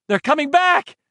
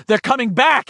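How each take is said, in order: First: High ringing yell; louder urgent shout. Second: High excited cry; urgent shout. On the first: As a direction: shout it out at last. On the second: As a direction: wants to shout the news. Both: A narrator's reading. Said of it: "he wanted to shout".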